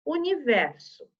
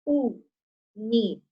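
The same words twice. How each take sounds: First: Said in the usual way. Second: "Universo" slowly split as u-ni-ver-so; teacher sounding out "Universo", a pause after each syllable. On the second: Shown as a demonstration. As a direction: break "Universo" into four separate syllables, R sounded at the end of ver. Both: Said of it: "no final dessa sílaba aqui do ver".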